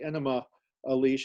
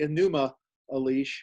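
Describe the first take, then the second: First: The first word sounds like 'enema'. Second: The first word does not sound like 'enema'. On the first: The speaker calls it wrong. "you sometimes hear pronounced the Enema Elish. That, that sounds too much like a medical uh, uh, cleansing procedure" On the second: The speaker calls it right. "so I usually say Enuma Elish"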